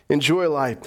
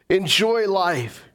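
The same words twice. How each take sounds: First: Said in the usual way. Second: Enjoy stretched out and slow; slow emphatic. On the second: Shown as a demonstration. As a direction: linger on Enjoy life. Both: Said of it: "repeated for emphasis".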